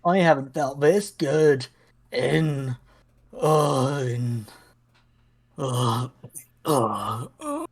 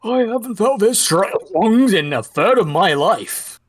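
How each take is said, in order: First: Put-on faltering, fading old man; losing strength mid-sentence. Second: Put-on triumphant, strong old man; proud and reinvigorated. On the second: Player voices reinvigorated old man.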